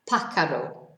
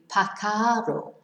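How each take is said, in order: First: The stress is on the first syllable. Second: The stress is on the second syllable. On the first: The speaker calls it right. "the accent is on the A" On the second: The speaker calls it wrong. "because otherwise it would be pacaro"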